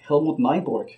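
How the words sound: The name is pronounced the English way.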